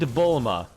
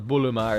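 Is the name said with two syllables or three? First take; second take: two; three. First: The name is said in two syllables. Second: The name is said in three syllables. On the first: "they have a character named Bulma" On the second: "in Japanese, like I think they pronounce it as a Buluma"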